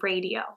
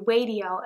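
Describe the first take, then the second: First: The first sound is a clear R. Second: The first sound is not a clear R. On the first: This is the expected adult pronunciation. The speaker calls it right. "instead of radio" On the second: A child who cannot yet say R says it this way. The speaker calls it wrong. "my child can't say R, so they say radio"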